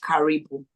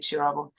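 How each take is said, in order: First: The name begins with a hard k sound. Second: The name begins with a ch sound. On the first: The speaker calls it wrong. "a lot of people pronounce it as Karibu" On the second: The speaker calls it right. "So it's actually Chirabo"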